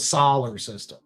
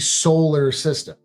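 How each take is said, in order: First: The first syllable sounds like 'Saul'. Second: The first syllable sounds like 'soul'. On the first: The speaker calls it wrong. "not the solar system" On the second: The speaker calls it right. "I would always say soul"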